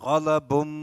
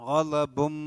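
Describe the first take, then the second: No difference in how they are said.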